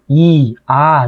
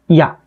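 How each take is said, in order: First: A full-length 'i' is said, then 'a' separately. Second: A very short 'i' glides straight into 'a'. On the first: The speaker calls it wrong. "일반적으로 우리가 발음하는 이처럼 발음하는 게 아니죠" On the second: The speaker calls it right. "이를 짧게 발음하면"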